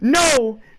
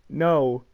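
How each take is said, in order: First: It is exclaimed, but not shouted. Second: It is said calmly, without exclamation.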